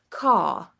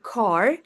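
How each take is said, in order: First: The final R sound is dropped entirely. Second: The final R sound is clearly pronounced. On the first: "in non-rhotic accents, they're dropping uh, R at the end" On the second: "American English, uh, they pronounce R in all positions, like car"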